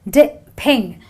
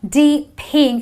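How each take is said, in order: First: The first vowel is a short i sound. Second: The first vowel is a long ee sound. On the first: The speaker calls it right. "a short I sound" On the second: The speaker calls it wrong. "it's not D ping"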